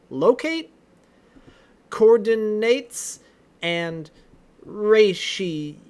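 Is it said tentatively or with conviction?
tentatively. It is said tentatively, without much conviction.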